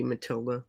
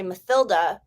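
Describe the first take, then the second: First: "Matilda" with a plain T; German-style pronunciation. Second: "Mathilda" with a "th" sound; TH pronunciation. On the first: Guest explaining the German pronunciation, "Matilda" with T. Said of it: "the thorn isn't used in German anymore". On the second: Streamer whose phonics kicks in, "Mathilda" with "th". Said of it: "because of the T H". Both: Shown as a demonstration.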